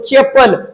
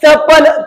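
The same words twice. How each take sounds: First: The first consonant is palatal, drawn out. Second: The first consonant is dental, not drawn out. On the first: The speaker calls it right. "चे असं लांब ओढतो आपण" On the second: The speaker calls it wrong. "चप्पल चपल म्हणतो का आपण?"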